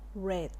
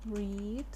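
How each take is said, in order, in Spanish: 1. La vocal es corta, como en 'red'. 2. La vocal es larga, como en 'reed'.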